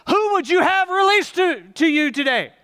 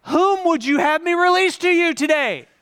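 First: Loud, high proclamation to the mob; Pilate. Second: Much louder and higher proclamation; louder Pilate. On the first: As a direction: call out over the crowd as Pilate. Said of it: "I'm Pilate". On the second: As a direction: turn it up and bellow to the mob. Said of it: "I'm gonna turn the volume up just a little". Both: Acted.

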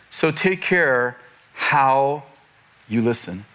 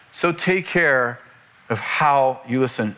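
First: Slow, with "how" drawn out and set apart by pauses; stress on how. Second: Slow "take care", then "how" lightly stressed; lighter stress on how. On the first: Preacher reads the verse to point at listening, stress on "how". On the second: Preacher repeats the verse for the congregation, lighter stress on "how". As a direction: stretch "take care", pause, then "of how" in a connected phrase. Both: Shown as a demonstration. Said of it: "I wanna talk about how".

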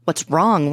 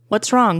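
First: Contained anger, leaning on WRONG; seething. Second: Higher, tearful question; mildly upset, voice lifted; shaky, sniffling. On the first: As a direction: throw the question back, seething. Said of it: "Lassie seethed". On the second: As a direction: ask it as if between sniffles. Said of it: "shakily between sniffles". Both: A narrator's reading.

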